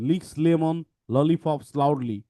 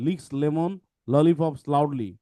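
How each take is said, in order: First: Slow, deliberate, every L sounded; slow tongue twister. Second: Said in the usual way. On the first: Shown as a demonstration. Teacher modelling the tongue twister for students, slowly. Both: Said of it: "আমরা একটু দেখি".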